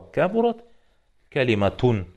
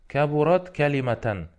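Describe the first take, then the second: First: The second word ends with the vowel 'u' plus n. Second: The second word ends with the vowel 'a' plus n. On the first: The word is the subject of the verb. "должно же быть с домой" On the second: The word is in the accusative form. "Почему с фатхой?"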